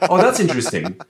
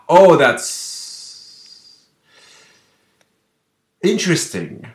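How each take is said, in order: First: It flows on without a pause before interesting. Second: There is a silent pause before interesting.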